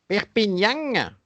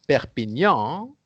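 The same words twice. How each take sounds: First: It is said in a southern French accent. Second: It is said in standard French. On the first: "they would say Perpignan" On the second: "which is the normal way of saying it"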